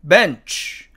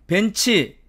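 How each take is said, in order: First: It is said with English pronunciation. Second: It is said with Korean loanword pronunciation. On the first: "영어의 원래 발음은" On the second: "우리는 어떻게 부릅니까?"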